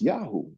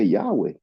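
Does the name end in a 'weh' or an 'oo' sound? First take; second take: oo; weh. First: The name ends with an 'oo' sound. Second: The name ends with a 'weh' sound. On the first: Some scholars think it was originally said this way. "Some scholars think that it's, it was pronounced Yahoo" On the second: This is the usual modern pronunciation. "we usually say Yahweh"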